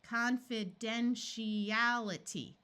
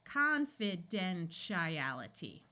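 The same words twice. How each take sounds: First: The vowel before 'ality' is a long E sound. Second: The vowel before 'ality' is a short I sound. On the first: The speaker calls it right. "let's switch from a long I to a long E here ... There we go" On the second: The speaker calls it wrong. "switch this long I to a short I. ... That's close"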